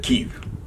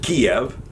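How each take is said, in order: First: The name is said the Ukrainian way. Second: The name is said the Russian way. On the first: "the Ukrainians pronounce it" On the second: "Russians pronounce it"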